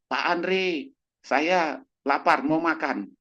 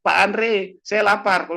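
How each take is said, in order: First: Higher, slow pleading for food; whiny hungry patient. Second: High, loud yelled complaint; hungry yell. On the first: Old patient begs Pak Andre for more food, slow and whiny. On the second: Old patient yells again to Pak Andre for food, high and loud. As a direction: yell for food across the house. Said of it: "teriak lagi". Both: Retold or imitated.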